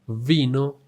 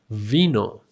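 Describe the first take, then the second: No difference in how they are said.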